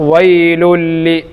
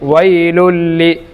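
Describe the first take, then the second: No difference in how they are said.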